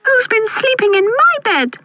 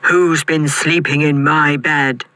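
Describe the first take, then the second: First: Put-on very high baby bear squeak; tiny squeaky voice. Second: Slow, gruff Father Bear; great gruff growl. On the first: Baby Bear finding his bed slept in, tiny squeak. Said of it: "squeaked Baby Bear in his tiny voice". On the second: Father Bear finding his bed slept in, gruff growl. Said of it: "growled Father Bear in his great gruff voice". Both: A narrator's reading.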